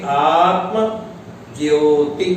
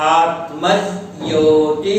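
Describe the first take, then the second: First: The two parts are said separately with a break. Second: The two parts are joined smoothly without a break. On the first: The speaker calls it wrong. "यदि हम दोनों को अलग अलग करेंगे" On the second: The speaker calls it right. "सही है आत्मज्योति ही"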